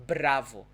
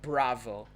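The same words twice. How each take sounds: First: "bravo" with a rolled Portuguese R; vibrating R. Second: "bravo" slowly with an untrilled English retroflex R; wrong English R. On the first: Teacher showing how Portuguese would say it, vibrating R. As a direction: trill the R in "bravo", firmly demonstrated. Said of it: "this, this vibrating sound". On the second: Teacher showing what nobody says in Brazil, English R. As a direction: curl the tongue back for the R in "bravo". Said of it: "It's not bravo". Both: Shown as a demonstration.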